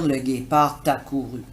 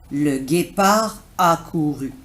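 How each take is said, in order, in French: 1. Un son t relie guépard à a. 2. Aucun son t ne relie guépard à a.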